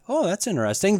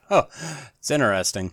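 First: It sounds genuinely curious and intrigued. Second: It sounds sarcastic and dismissive. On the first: The listener truly finds the remark interesting. "One way I'm intrigued" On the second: The listener is mocking the remark. "The other way I'm a jerk"

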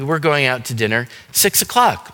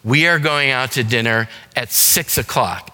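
First: It is said in a happy tone. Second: It is said in an angry tone.

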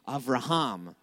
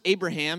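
First: The name is said the Hebrew way, not ending in 'ham'. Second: The name is said the English way, ending in 'ham'. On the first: The speaker calls it right. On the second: The speaker calls it wrong.

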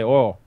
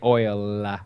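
First: Oil is said with a flattened Southern vowel. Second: Oil is said fully, with a clear glide. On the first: "in the South, they say oil" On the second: "They never say oil. It's a little bit effeminate to oil"

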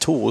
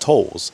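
First: The vowel is a long 'oo' sound, as in 'tools'. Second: The vowel is an 'oh' sound, as in 'tolls'. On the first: "instead of tools" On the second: "she says tolls"

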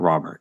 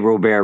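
First: The name is said with an English pronunciation. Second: The name is said with a French pronunciation. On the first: "not Robert" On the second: "they say Robert right away"

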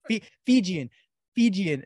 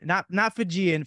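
First: It is said with a native Fijian pronunciation. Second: It is said with an American English pronunciation. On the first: The speaker calls it right. "Fijian, not Fijian" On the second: The speaker calls it wrong.

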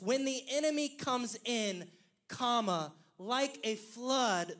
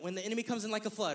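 First: There is a pause right after 'comes in'. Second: It flows on without a pause after 'comes in'.

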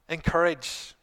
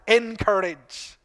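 First: The word has a standard, neutral pronunciation. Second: The word has a Northern Irish pronunciation.

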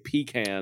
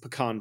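First: It uses the local regional pronunciation of pecan. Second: It uses the Texas regional pronunciation of pecan. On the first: "I know up here we say pecan" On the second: "But in Texas it's pecan pie"

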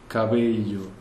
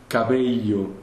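Both takes have the same delivery.

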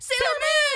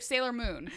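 First: It is yelled loudly. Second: It is said calmly, not yelled.

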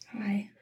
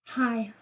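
First: It is said quietly. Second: It is said loudly.

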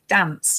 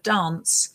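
First: It is said in a northern English accent. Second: It is said in a southern English accent. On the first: "I'm from the north of the country and I say certain things like dance" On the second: "instead of dance"

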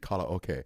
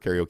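First: It is said with the original Japanese pronunciation. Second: It is said with the usual English pronunciation.

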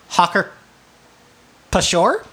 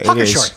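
First: A P sound is pronounced before the sh. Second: The P is silent before the sh. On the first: "I believe that's how it's pronounced" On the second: "The P might be silent"

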